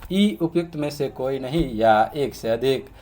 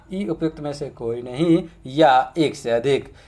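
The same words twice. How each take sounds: Both takes have the same delivery.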